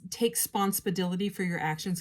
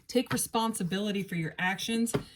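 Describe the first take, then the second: First: The first syllable of responsibility is dropped. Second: The word responsibility is said in full.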